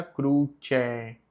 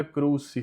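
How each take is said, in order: First: "cruce" slowly as KROO-tcheh. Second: "cruci" said KROO-see. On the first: Teacher correcting learners, C said as tch. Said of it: "tem som de tché". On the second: Teacher showing the form to avoid, S sound. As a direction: hiss the second C of "cruci" as S. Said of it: "não fica cruci". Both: Shown as a demonstration.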